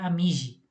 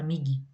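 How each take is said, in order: First: The g sounds like a soft j. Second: The g sounds hard, like in go. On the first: The speaker calls it wrong. "você pronuncia a letra G como J" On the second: The speaker calls it right. "a gente adiciona a letra U também"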